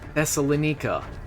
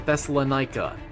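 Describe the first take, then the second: First: It is said with a non-American pronunciation. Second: It is said with an American pronunciation.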